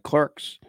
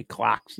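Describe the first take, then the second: First: Said in the usual way. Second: "clocks" with an open AH for clerks; English pronunciation. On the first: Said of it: "instead of clerks". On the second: Shown as a demonstration. Host mimicking English speech, "clocks" as r-less CLAHKS. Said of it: "'cause they say clocks".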